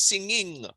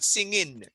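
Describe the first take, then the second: First: The word ends with an ng sound. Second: The word ends with a plain n sound. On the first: The speaker calls it right. "It's singing" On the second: The speaker calls it wrong. "it's not in. It's not singing"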